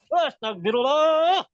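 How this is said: It is said angrily, like an annoyed mother.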